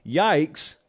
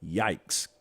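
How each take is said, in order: First: Said in the usual way. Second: A low, soft, deflated yikes; mock lame yikes. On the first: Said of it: "can loosely be translated to". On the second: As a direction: toss it off like a weak comeback. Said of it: "They say".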